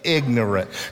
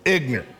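First: It is said carefully, all syllables clear. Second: It is clipped, East Tennessee style, nearly one syllable.

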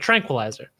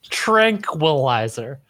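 First: The word is said at normal speed. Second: The word is drawn out slowly. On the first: "but tranquilizer" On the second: "I mean that I really stretched it out"

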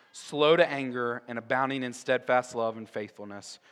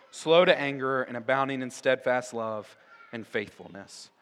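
Both takes have the same delivery.

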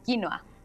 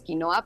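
First: The stress is on the first syllable. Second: The stress is on the second syllable. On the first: The speaker calls it right. "pero es quinoa, con acento en la quinoa" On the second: The speaker calls it wrong. "nosotros le decimos quinoa"

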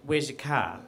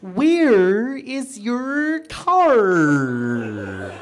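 First: It is said in a plain Australian accent. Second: It is said in an exaggerated, cartoon-like accent.

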